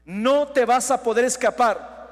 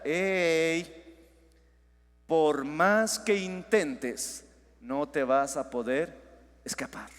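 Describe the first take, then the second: First: Louder, driving the warning home; loud proclamation. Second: A hushed, slow, haunting inner voice; eerie imagined voice. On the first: Shown as a demonstration. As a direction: proclaim it loudly to the whole church. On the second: Pretend. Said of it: "como que si escucharas una voz ahorita".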